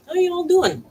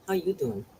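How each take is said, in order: First: High, loud singsong greeting to the pets. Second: Said in the usual way. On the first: Real, not acted. Greeting her pets, high loud singsong hello.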